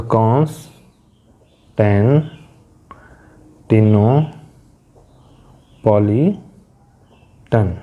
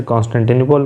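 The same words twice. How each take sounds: First: कॉन्स्टेंटिनोपॉलिटन very slowly, in pieces with long pauses between; syllable by syllable. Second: Said in the usual way. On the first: Shown as a demonstration. Teacher showing learners the syllables, कॉन्स्टेंटिनोपॉलिटन split by long pauses. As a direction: break कॉन्स्टेंटिनोपॉलिटन into drawn-out, separate chunks. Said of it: "इन syllables को बोलने के लिए हमें अलग-अलग". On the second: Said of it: "जैसे Constantinople कहते हैं".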